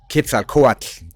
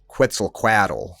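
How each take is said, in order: First: It is said with the historical Nahuatl pronunciation. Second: It is said with an anglicized English pronunciation. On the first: The speaker calls it right. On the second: The speaker calls it wrong.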